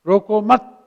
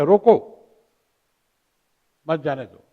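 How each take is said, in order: First: रोको मत joined as one phrase, then a break; pause after मत. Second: रोको said alone, long pause, then मत जाने दो falling; pause after रोको. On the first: Teacher shows students the opposite meaning, pause after मत. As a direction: run रोको straight into मत, louder, and stop after मत. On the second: Teacher shows students how phrasing changes meaning, pause after रोको. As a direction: break after रोको, run मत जाने दो together, lower. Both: Shown as a demonstration. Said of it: "अगर आपने अनन्वय किया".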